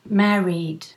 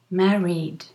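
Both takes have the same delivery.

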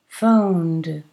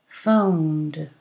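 No difference in how they are said.

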